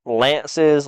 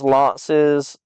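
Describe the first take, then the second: First: Said in the usual way. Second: "lances" with an open "aw"-like first vowel; broad vowel. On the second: Shown as a demonstration. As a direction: say "lances" as "lawn-siz", with a long back vowel. Tries two pronunciations of a word.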